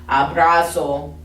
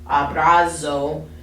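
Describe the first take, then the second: First: The z is a buzzing z sound. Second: The z is a buzzing z sound.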